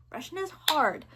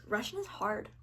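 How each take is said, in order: First: "hard" punched higher, with a falling tune; insistent stress on "hard", pitched up then dropping; emphatic HARD. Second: Said in the usual way. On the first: Real, not acted. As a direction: lean heavily on the word "hard". Repeats it for emphasis.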